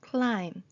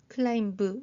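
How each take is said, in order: First: The word ends on the m sound. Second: A b sound is heard at the end. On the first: The speaker calls it right. "B가 다 소리가 나지 않았습니다" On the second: The speaker calls it wrong. "이게 아니고"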